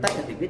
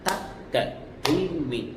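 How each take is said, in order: First: The syllables are spoken very fast, eight per beat. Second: The syllables are spoken at double speed, two per beat. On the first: "ఒక దెబ్బకి ఎనిమిది అక్షరాలు పలకాలి" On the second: "ఇది రెండో కాలం"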